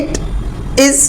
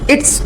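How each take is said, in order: First: The two words are said separately. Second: The two words are joined into one.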